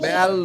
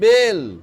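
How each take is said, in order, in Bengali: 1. স্বরধ্বনিটি একটি খোলা 'ae' ধ্বনি। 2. স্বরধ্বনিটি একটি চাপা 'e' ধ্বনি। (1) "এটা কিন্তু বেল হবে না, বেল নয়" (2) "এর কিন্তু মাত্রা নেই, তাহলে এটা হয়ে যাবে বেল।"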